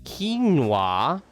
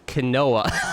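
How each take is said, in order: First: Quinoa is pronounced the usual English way. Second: Quinoa is pronounced the Spanish way. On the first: This is how people outside Spain say it. "outside it's pronounced as quinoa" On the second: This is how people in Spain say it. "like we say quinoa"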